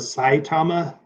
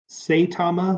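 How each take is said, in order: First: The first syllable sounds like 'sigh'. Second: The first syllable sounds like 'say'. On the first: This is how the speaker tends to say it. "like S E Y E" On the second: This is how many other people say it. "like S A Y Tama"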